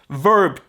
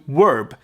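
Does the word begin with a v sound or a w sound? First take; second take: v sound; w sound. First: It begins with a clear v sound. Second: It begins with a w-like sound.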